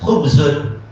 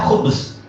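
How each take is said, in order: First: The word ends with an -un ending. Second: The word ends on a bare z. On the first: This is the full written form. "Kalau dalam menulis" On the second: This is the form when stopping at a pause. "ketika membaca"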